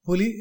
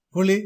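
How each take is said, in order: First: புலி with a light tongue-tip l; புலி, l not curled; correct ல. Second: புலி with l curled into ள; புலி with thick retroflex l; wrong ல. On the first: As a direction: say புலி with plain clear l. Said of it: "என்பது சரி". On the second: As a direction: say புலி like புளி. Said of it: "என்பது தவறு". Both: Shown as a demonstration.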